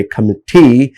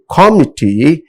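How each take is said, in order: First: "committee" with the weight moved off COM onto the later syllables; later-syllable stress. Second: "committee" pitched up with stress on COM; first-syllable stress. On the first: Teacher correcting students, "committee" stressed after the first syllable. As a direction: keep COM light in "committee" and stress what follows. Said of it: "they are supposed to say committee". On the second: Teacher showing students' mistake, "committee" stressed on the first syllable. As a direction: hit COM at the start of "committee". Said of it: "actually they are supposed to say".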